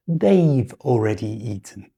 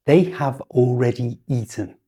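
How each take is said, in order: First: "They've" as one syllable ending in v; contracted they've. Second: "They have" said as two full words; full form they have. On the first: Teacher modelling the natural native contraction. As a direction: glide "They've" straight into already. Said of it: "far more likely to say". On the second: Teacher showing the unusual uncontracted form. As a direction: stress the unreduced "have". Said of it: "really unusual for a native speaker". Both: Shown as a demonstration.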